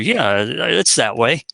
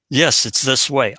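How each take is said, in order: First: It is said with slight hesitation. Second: It is said with firm certainty.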